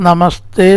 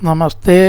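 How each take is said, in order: Both takes have the same delivery.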